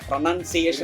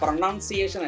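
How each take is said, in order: First: The second syllable sounds like 'nun'. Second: The second syllable sounds like 'noun'. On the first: The speaker calls it right. "ആണ്, N U N ആണ്, noun അല്ല" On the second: The speaker calls it wrong. "അല്ല"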